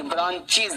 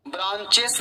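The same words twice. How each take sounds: First: ब्रांचेस ending in "iz"; correct pronunciation. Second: ब्रांचेस with a plain "es" ending; wrong pronunciation. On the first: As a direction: say ब्रांचेस as "branch-iz". (ब्रांचेस को "इज" के साथ सही उच्चारण) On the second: (ब्रांचेस को "एस" के साथ गलत उच्चारण) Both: Shown as a demonstration. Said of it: "ब्रांचेस नहीं".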